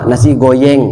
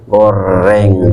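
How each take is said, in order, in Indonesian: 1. Bunyi R diganti dengan bunyi Y. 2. Kata itu diucapkan dengan bunyi R yang jelas. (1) "tidak bisa huruf R" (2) "akhirnya latihan"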